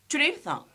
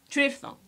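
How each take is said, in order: Both takes have the same delivery.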